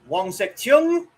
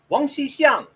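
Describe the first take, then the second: First: The name is said with a Cantonese pronunciation. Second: The name is said with a Mandarin pronunciation. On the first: "he was born Wang Sek-chung" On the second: "or in Mandarin"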